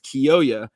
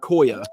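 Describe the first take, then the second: First: The name begins with a 'kee-yo' sound. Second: The name begins with a single short 'ko' sound. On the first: The speaker calls it right. "It's Kiyoya" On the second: The speaker calls it wrong. "It's not Koya"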